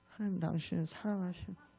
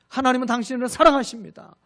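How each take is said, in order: First: It is said unsurely, without conviction. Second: It is said with firm confidence.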